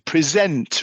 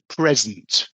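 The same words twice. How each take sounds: First: The stress is on the second syllable. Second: The stress is on the first syllable. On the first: It is a verb meaning to show to an audience. "zent, the second syllable" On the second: It is a noun meaning a gift. "It's at the beginning"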